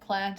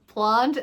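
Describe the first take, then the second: First: It is said with an American vowel. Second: It is said with a British vowel. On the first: "plant is the American way of saying it" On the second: "is like the British way of saying plant"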